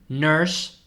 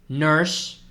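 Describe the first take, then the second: Both takes have the same delivery.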